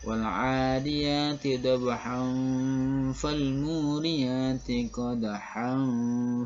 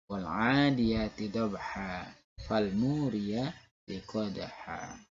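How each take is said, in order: First: The words run on and end in an n sound. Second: The words stop and end in a long vowel. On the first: The reciter continues without stopping. "Kalau kita mau melanjutkan, maka ad-watnya batal" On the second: The reciter stops at the end of the verse. "kalau kita berhenti, kita wakaf, maka mat iwatnya dibaca"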